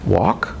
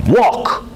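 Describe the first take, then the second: First: Said in the usual way. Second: Walk pitched up high and louder, rising; a startled "Walk?" going up; shocked rising query on the word walk; surprised question. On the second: Shown as a demonstration. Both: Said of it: "I can say it like this".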